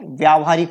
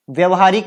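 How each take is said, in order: First: व्यावहारिक with long "vyaa"; correct form. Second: व्यवहारिक with short "vya"; incorrect form. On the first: Teacher giving the correct word, व्यावहारिक with long vyaa-. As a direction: lengthen the first vowel of व्यावहारिक. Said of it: "ये शुद्ध है". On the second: Teacher rejecting the error, व्यवहारिक with short vya-. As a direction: keep the first vowel of व्यवहारिक short. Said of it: "व्यवहारिक नहीं होता है". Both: Shown as a demonstration.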